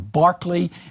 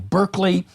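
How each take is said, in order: First: The first vowel sounds like 'ar' in 'car'. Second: The first vowel sounds like 'er' in 'her'. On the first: This is the British way of saying it. "the British philosopher" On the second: This is the American way of saying it. "the American university"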